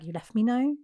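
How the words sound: It rises at the end like a question.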